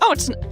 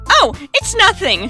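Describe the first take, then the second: First: It is said in the reader's own voice. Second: It is said in Natsuki's character voice.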